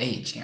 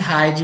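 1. O nome começa diretamente com uma vogal. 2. O nome começa com um som de H audível. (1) "Tá, Eide, ok" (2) "Eu achei que fosse Heide por causa do H"

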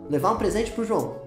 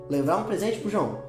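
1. "Para o" vira uma única sílaba curta. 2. "Para o" vira uma única sílaba curta.

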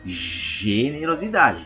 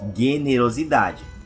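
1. O primeiro som é um J chiado. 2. O primeiro som é um G forte. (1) "essa letra G já tem ali um som mais de J, né? Pois nós falamos generosidade" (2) "nós não falamos generosidade"

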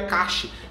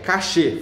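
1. É dita como uma sílaba, como cash. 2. É dita como duas sílabas, com acento na última. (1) "Não, é cache" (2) "Fala cachê, pronuncia como cachê"

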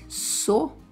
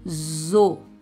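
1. A sílaba começa com um s surdo, como em "so". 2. A sílaba começa com um z sonoro, como em "zo". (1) "fala como S" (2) "a letra S fala como Z"

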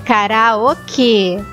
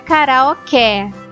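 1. A vogal final é pronunciada como um é fechado. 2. A vogal final é pronunciada como um é aberto. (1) "é karaokê, porque tem esse sinalzinho em cima do E" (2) "a palavra não é karaokê"

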